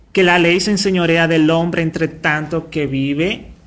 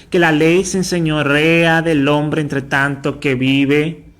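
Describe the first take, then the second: The two takes are said the same way.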